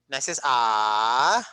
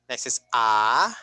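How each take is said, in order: Both takes have the same delivery.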